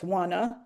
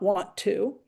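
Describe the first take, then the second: First: The two words blend into reduced 'wanna'. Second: The two words are said fully and separately. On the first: The speaker calls it right. "He wants wanna" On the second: The speaker calls it wrong. "not want to"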